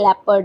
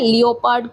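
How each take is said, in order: First: The word has two syllables, lep-ard. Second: The word has three syllables, lee-o-pard. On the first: The speaker calls it right. "ये लेपर्ड है" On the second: The speaker calls it wrong. "लियोपार्ड कुछ नहीं है"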